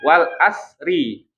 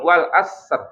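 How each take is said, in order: First: The last letter carries an added i vowel. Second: The last letter is a bare consonant, no vowel. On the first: "kita baca ya wal asri" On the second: "tinggal diganti jadi sukun"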